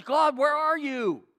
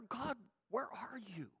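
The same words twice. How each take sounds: First: High, loud, slow cry to God; drawn-out desperate plea; anguished call. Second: Very soft, forlorn question; quiet, lost plea to God; hushed prayer. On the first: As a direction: demand an answer from heaven. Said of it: "What he's saying is". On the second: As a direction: ask it almost to yourself. Acted prayer, hushed second take. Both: Acted.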